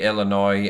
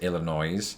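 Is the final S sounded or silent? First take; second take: silent; sounded. First: The final S is silent at the end. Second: The final S is pronounced at the end. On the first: The speaker calls it right. "that S is in fact silent" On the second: The speaker calls it wrong. "it creates an extra noise instead of an extra noi"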